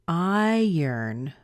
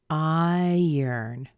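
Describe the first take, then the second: The two takes are said the same way.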